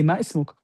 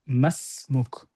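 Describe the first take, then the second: First: The words stay apart, keeping the i vowel. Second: The words blend, dropping the i vowel. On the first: The speaker calls it wrong. "you wouldn't say ma ismuk" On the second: The speaker calls it right. "This is why you say ma masmuk"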